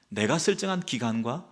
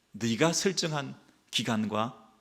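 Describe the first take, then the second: First: 설정한 stressed with a rise. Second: 네가 drawn out and stressed, slowly. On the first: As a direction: lift 설정한 to answer the last line. ('설정한'에 힘주고 끝을 올려) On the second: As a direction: lean slowly on 네가 to set it against 내가. ('네가'에 힘주어 천천히) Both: Shown as a demonstration.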